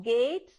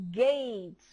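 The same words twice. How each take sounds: First: Gate said the mistaken way, with a rising tune; wrong way. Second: Gate said clearly as "get" with a short vowel; correct pronunciation. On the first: Teacher contrasting the children's wrong gate with the right one. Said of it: "Not gate". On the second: Teacher correcting how the children say gate. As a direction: model the word gate cleanly. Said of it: "you have to pronounce it as". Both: Shown as a demonstration.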